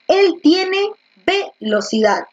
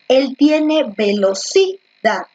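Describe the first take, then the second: First: The stress is on the first syllable, ve. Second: The stress is on the third syllable, ci.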